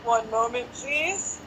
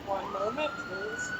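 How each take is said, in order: First: A light take on the recorded "One moment, please"; phone hold voice. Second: "One moment, please" with a soft "moment" and a leap way up on "please"; a hammed-up phone-queue announcement that squeaks up high at the end; phone hold voice. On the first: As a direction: say "One moment, please" like a phone-queue announcement, rising at the end. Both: Shown as a demonstration. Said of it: "actually my best impression".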